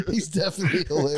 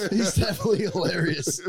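First: Said in the usual way. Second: Laughing. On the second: Real, not acted. Repeated line, first take laughing.

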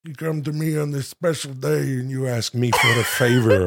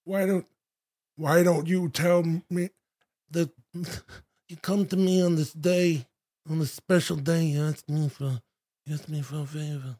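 First: Put-on Austrian accent creeping into Brando; a Godfather line gone Schwarzenegger; Schwarzenegger slip. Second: Soft mumbled Brando; hushed Godfather mumble; Godfather impression. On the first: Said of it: "It turns into Schwarzenegger". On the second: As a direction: murmur it like Vito Corleone. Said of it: "Marlon Brando".

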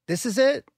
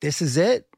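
First: "this is it" leapt up high; "this is it" pitched far higher to convince himself; psyching himself up mid-race, much higher; pushing himself through pain. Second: Said in the usual way. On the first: Shown as a demonstration. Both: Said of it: "and say".

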